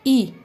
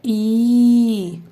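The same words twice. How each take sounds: First: ई kept short and light. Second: ई stretched long and louder; teacher booming a long ई. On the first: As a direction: clip the short ई. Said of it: "इसी तरीके से जब ई होता है". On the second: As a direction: sing out a long ई. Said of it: "बड़ी वाली ई बोलनी होती है". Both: Shown as a demonstration.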